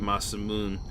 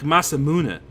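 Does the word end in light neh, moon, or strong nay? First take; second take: moon; light neh. First: The word ends in moon with no final vowel. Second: The word ends with a lighter, shorter neh sound. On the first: "which is how most people call it, which is wrong" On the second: "but not with as much of an a sound as I put at the end"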